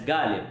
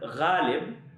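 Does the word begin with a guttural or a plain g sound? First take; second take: plain; guttural. First: It begins with a plain hard g sound. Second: It begins with a guttural, throaty gh sound. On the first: This is the Hindi pronunciation. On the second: This is the Urdu pronunciation.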